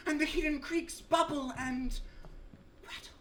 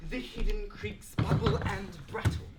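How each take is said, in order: First: High declamation sinking to a hushed last word; faltering recitation. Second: Deliberate, full-voiced repeat through to BRATTLE; defiant recitation. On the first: Acted. Recitation falters at unfortunate rhyme. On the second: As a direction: recite it firmly without hesitating, landing on BRATTLE. Defiantly repeats the mocked line.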